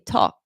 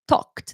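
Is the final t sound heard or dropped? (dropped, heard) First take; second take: dropped; heard. First: The final t sound is left off. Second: The final t sound is clearly heard. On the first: The speaker calls it wrong. "they forget to say the ed" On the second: The speaker calls it right. "Instead of talked"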